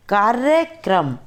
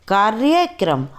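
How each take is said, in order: First: कार्यक्रम without the y, "karakram"; wrong pronunciation. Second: कार्यक्रम with the y, "karyakram"; कार्यक्रम with a clear y, karyakram; correct pronunciation. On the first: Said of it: "अशुद्ध उच्चारण अलग तरीके से होता है". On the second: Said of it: "शुद्ध उच्चारण अलग तरीके से होता है". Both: Shown as a demonstration.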